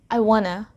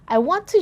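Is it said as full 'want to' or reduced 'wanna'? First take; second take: reduced; full. First: 'Want to' is reduced and blended together. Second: Each syllable of 'want to' is fully pronounced. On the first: This is how a native speaker might say it. "native speakers say, I wanna" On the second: This is how a non-native speaker might say it. "We heard each syllable"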